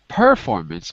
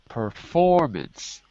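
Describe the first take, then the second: First: The stress is on the first syllable. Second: The stress is on the second syllable. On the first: The speaker calls it wrong. "Not performance" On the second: The speaker calls it right. "has a stress on the second syllable"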